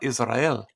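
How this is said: It is said with a foreign-sounding pronunciation. This is an unfamiliar way of saying it. "that's a different way of saying things than we're used to"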